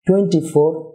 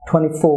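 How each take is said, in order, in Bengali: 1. Stress পড়ে প্রথম শব্দে। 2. স্ট্রেস পড়ে দ্বিতীয় শব্দে।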